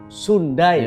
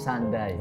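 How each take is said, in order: First: The word is read with Indonesian pronunciation. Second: The word is read with English pronunciation. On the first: "dirangkum menjadi satu menjadi Sundai" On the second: "Kalau dibaca bahasa Inggris menjadi Sandai"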